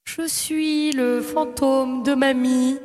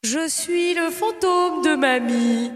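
First: Slow, drawn-out ghostly grandma; haunt the line slowly like a ghost. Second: Very slow ghostly grandma. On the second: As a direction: stretch each word, eerie. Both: Acted. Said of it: "la voix de fantôme".

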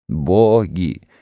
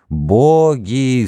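First: Said in the usual way. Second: Moaning cry. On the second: Acted. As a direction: cry it out in despair. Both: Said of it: "стонал и плакал народ".

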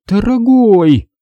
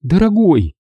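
First: Slow, drawn-out threat, higher and louder; warning tone before a blow-up; wife warning her man, slow and menacing; threatening. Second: Wife softening toward her man; tender. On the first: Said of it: "угрожающим тоном начала она". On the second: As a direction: say it gently, coaxing. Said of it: "нежно произнесла она". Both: A narrator's reading.

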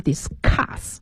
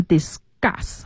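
First: Discuss with a puffed k, "dis-KHUSS"; unvoiced aspirated C. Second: Discuss with the c softened to g, "dis-GUSS"; voiced C after S. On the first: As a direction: say discuss slowly, aspirating the k hard. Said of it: "比如说discuss还是discuss". (discuss 中的 c 读成送气的 k) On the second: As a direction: say discuss slowly with a g sound. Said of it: "清辅音后面的重读都要浊化". (discuss 中的 c 浊化读成 g) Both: Shown as a demonstration.

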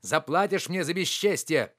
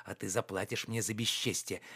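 First: Higher, indignant threat; parting shout. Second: Lower, softer warning; low threat. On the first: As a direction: call it back while leaving. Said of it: "кричал он". (крикнуть напоследок с угрозой) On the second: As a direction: drop the voice to threaten quietly. Sullen threat while preparing to leave. (тихая угроза) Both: A narrator's reading.

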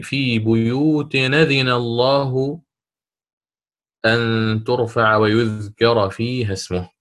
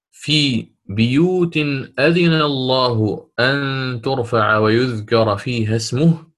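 First: Slow chant with بيوت as "buyut", damma on the baa; Warsh's reading, damma on baa. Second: Slow chant with بيوت as "biyut", kasra on the baa; Qalun's reading, kasra on baa. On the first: Teacher chants Warsh's reading for students, slow recitation. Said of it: "وقرأ الإمام ورش". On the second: Teacher chants Qalun's reading for students, slow recitation. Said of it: "قرأ بكسر الباء". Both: Shown as a demonstration.

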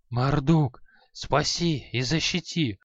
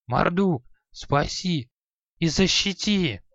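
First: Frantic mumbled prayer. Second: Higher, desperate pleading prayer; frantic prayer. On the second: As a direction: beg the god in panic. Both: A narrator's reading. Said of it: "Иступлённо забормотал старик".

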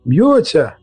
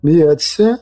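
First: Mild exclamatory shout; excited cry. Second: Rising, higher-pitched echo question; taken aback, voice lifting at the end; surprised question. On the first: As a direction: cry it out to the crowd. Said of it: "крикнув один з цікавих перехожих". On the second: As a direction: repeat it in astonishment. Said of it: "здивувався Невіл". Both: A narrator's reading.

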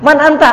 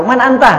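First: Repeated question pitched higher and a touch louder; asking again, higher. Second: A lightly raised host's question; asking who is there. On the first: Host repeats his question to the knocker, higher and a bit more insistent. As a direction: press the knocker a second time, mildly exasperated. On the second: Host asks the knocker at the door, a mildly raised first question. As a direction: ask the stranger at the door who he is. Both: Retold or imitated. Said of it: "Misalnya ada orang ketok-ketok".

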